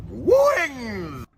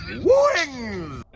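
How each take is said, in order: The two takes are said the same way.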